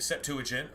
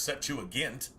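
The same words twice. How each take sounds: First: Septuagint with a soft G, like J; J sound in Septuagint. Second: Septuagint with a hard G, as in gamma; hard G sound in Septuagint. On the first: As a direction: say Septuagint ending in "jint". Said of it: "with a J sound is soft". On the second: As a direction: say Septuagint ending in "gint". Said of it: "Do y'all have a hard G?". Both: Shown as a demonstration.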